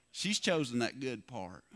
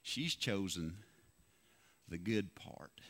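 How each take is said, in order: First: Said in the usual way. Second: Much lower and softer, hushed; "She's chosen the good part" dropped low and soft as God's gentle answer; God's quiet voice. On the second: Retold or imitated. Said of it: "He said".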